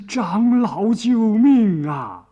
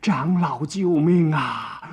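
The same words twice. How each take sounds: First: 又高又响、拖长的哭喊; 拉长嗓门高声哭求; 哭嚷呼救. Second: 拖长声音哭求，略带哭腔; 慢慢拖着腔哀求救命; 哭着呼救. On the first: (高声哭嚷着喊救命) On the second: (带点哭腔地慢声呼救) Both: A narrator's reading. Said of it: "又哭又嚷".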